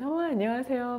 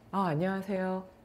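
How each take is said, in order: First: The greeting sounds warm and open. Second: The greeting sounds curt and closed.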